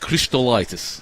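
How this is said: The surname is said in a foreign accent.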